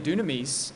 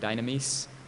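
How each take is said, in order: First: It is said in the Koine Greek pronunciation. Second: It is said in the modern Greek pronunciation. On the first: "I'm pronouncing it in the Koine pronunciation" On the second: "Modern pronunciation might pronounce it dynamis"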